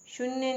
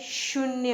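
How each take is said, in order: First: शून्य with short u, shun-ya; wrong pronunciation. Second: शून्य with long oo, shoon-ya; correct pronunciation. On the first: Teacher showing a misspelling, शून्य said with short u. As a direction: clip the u of शून्य, high. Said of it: "शून्य नहीं होता है". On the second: Teacher correcting learners, शून्य said with long oo. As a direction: stretch the vowel of शून्य. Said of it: "बड़े ऊ की मात्रा". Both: Shown as a demonstration.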